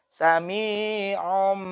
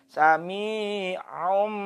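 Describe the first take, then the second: No difference in how they are said.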